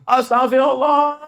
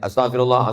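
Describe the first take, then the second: First: It is said loudly and forcefully. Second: It is said short and softly. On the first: "Ada yang bersuara keras" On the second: "istighfarnya pendek aja"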